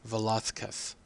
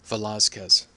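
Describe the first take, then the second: First: The z is sounded like th. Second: The z is sounded like an s.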